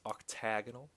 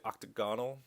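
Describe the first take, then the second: First: "octagonal" said as oc-TAG-onal; stress on TAG. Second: "octagonal" said as octa-GON-al; stress on GON. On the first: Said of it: "I try and memorize that it's octagonal". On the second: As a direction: stress "octagonal" on the third syllable, with an "ah". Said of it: "A lot of people say octagonal". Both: Shown as a demonstration.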